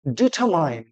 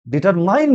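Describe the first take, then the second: First: ডিটারমাইন with silent r, falling end; correct pronunciation. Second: ডিটারমাইন with r sounded, stressed "main"; wrong pronunciation. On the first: Teacher modelling for students, correct pronunciation. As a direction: drop the r in ডিটারমাইন. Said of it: "সঠিক উচ্চারণ হবে". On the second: Teacher rejecting a common mistake, wrong pronunciation. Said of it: "ডিটারমাইন নয়". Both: Shown as a demonstration.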